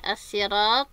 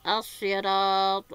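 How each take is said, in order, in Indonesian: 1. Bunyi s-nya tipis dan ringan. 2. Bunyi s-nya tebal dan berat. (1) "bisa dilafadzkan dengan menggunakan sin ya" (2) "qiraah dengan menggunakan sad"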